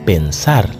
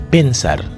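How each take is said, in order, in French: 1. L'accent est sur la dernière syllabe. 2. L'accent est sur la première syllabe. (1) "Ou devez mettre accent sur dernier syllabe là" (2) "ou pas ka di pensar, di pas bon"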